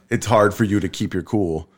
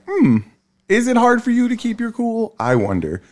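First: Said in the usual way. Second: Very high, feigned-innocent question; sarcastic musing, pitched way up; mock wondering. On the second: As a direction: wonder aloud in a put-on high voice. Acts own sarcastic reply to wife.

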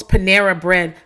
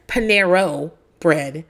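First: Said in the usual way. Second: "Panero" ending in a long O; husband's mispronunciation. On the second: Retold or imitated. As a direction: say "Panero" slowly, stressing the wrong final "oh" for an "ah". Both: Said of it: "my husband says, calls Panera bread".

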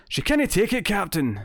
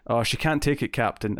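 First: Exaggerated cartoon Scottish accent, pitched high; animated Scottish accent with extra pizzazz; Scotty. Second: Said in the usual way. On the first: Shown as a demonstration. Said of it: "if I'm doing a Scotty impression". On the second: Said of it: "in my accent the way I'd say it".

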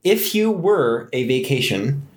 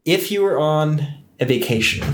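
First: Slow, with "were" drawn out and stressed; measured re-read that stretches the word "were"; corrected, deliberate reading. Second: Said in the usual way. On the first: Real, not acted. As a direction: restart carefully, leaning on "were". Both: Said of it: "I am butchering them".

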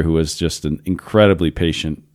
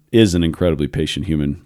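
First: Said in the usual way. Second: "is" leaned on as a correction; stress on IS. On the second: Real, not acted. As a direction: put the weight on "is" to correct the tense. Self-corrects was to is.

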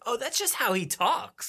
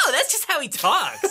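First: Higher, softer, slow musing; imagine a listener quietly excusing it; mock realization. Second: High-pitched, exaggerated dawning understanding; hammed-up "oh, I get it" voice; mock realization. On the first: Host voicing a listener's thought, mock musing. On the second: Host voicing the other person's head, hammed-up realization. Exaggerated retake of listener's thought.

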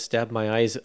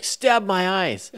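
First: Said in the usual way. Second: High, slow mock cry of discovery; excited exclamation. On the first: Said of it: "character says". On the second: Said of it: "like he's excited about something he's discovered".

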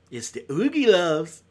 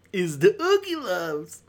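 First: Said in the usual way. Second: Slow, drawn-out sarcastic take on the title; mock dread. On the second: Repeating the title to viewers with slow sarcastic dread. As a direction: say it like it pains you.

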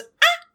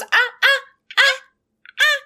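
First: Higher tongueless moaning; urgent wordless ah sounds; warning ah ah ah. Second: High tongueless moaning; urgent wordless ah sounds; warning ah ah ah. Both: Retold or imitated. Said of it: "She goes".

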